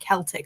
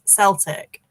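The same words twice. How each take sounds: First: The word begins with a hard K sound. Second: The word begins with an S sound. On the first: It refers to the ancient people and their language. "which is a hard K sound" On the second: It refers to the football team. "then it's an S sound"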